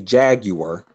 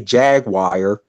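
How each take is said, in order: First: It is said with a British pronunciation. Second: It is said with an American pronunciation. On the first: This is how people in Britain say it. The speaker calls it right. "say jaguar" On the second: This is how people in the States say it. The speaker calls it wrong. "don't say jaguar"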